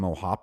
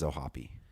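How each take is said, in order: First: The name ends in a p sound. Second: The name ends in an ee sound. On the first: The speaker calls it wrong. "I was always calling him Ohop because I never had heard his name" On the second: The speaker calls it right. "so I guess it is Ohapi"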